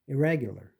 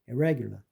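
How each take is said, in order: Both takes have the same delivery.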